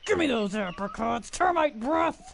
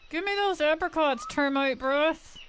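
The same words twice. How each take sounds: First: It is said with a dominant growl. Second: It is said in a plain voice.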